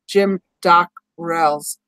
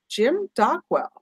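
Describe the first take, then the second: First: The surname is said with an R sound. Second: The surname is said with a W sound. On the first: The speaker calls it right. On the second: The speaker calls it wrong.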